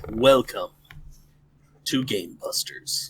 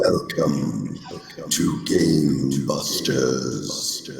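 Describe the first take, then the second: First: It is said in a normal voice. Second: It is said in a scary voice.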